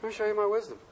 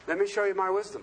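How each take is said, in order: First: "my" gets the main push, "me" stays light; stress on my. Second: "me" gets the main push, "my" stays light; stress on me. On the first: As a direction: lean on "my" in "my wisdom". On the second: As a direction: lean on "me" in "Let me show you". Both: Shown as a demonstration.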